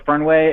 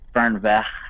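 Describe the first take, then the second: First: The word is said with an English-sounding ending. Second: The word is said with a German-sounding ending. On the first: The speaker calls it wrong. "I'm not actually saying it right" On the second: The speaker calls it right. "It should be like Fernweh"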